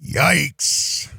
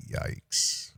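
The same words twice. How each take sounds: First: Said in the usual way. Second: Hushed, voiceless reaction; whispered. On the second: Real, not acted. Host reacts to the clip, whispered. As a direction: whisper it under your breath. Same word repeated in a whisper.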